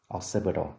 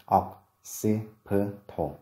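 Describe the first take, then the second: First: Said in the usual way. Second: Occipital very slowly, broken into separate syllables; slow, segmented teaching demo of "occipital"; syllable-by-syllable pronunciation. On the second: Shown as a demonstration. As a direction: sound out "occipital" with a gap after each syllable. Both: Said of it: "và từ thứ hai".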